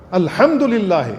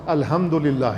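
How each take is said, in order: First: Slow الحمدللہ, stressing the guttural big ha; correct recitation. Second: الحمدللہ said softly with a light breathy ہ instead of ح; quiet mock-wrong الحمدللہ with a plain small ha; common mistake. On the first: Imam teaching the big ha in الحمدللہ, slowly. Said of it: "بڑا ہا کے ساتھ ہے". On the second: Imam imitating prayer leaders who misread ح, quietly. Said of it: "چھوٹی ہا کے ساتھ". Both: Shown as a demonstration.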